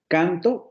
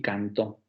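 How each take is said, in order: First: "canto" slowly, weight on CAN-; stress on first syllable. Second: "cantó" slowly, weight on the final -tó; stress on last syllable. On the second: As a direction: make -tó the strong syllable of "cantó". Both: Shown as a demonstration. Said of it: "permite generar contraste entre palabras".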